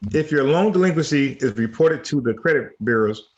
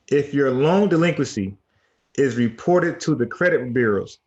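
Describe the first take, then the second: First: The sentence is read at a faster pace. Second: The sentence is read at a slower pace. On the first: The speaker calls it wrong. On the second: The speaker calls it right.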